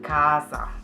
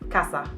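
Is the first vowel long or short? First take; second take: long; short. First: The first a vowel is drawn out long. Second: The first a vowel is short. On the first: The speaker calls it wrong. "Deutsche würden sagen Casa. Das ist aber falsch" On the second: The speaker calls it right. "Die richtige Aussprache ist Casa. Das heißt, das A ist kurz"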